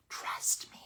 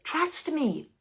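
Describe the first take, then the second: First: Eerie whisper; spooky hushed repeat. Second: Said in the usual way. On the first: Real, not acted. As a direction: whisper it like a ghost story. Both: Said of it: "that was very spooky".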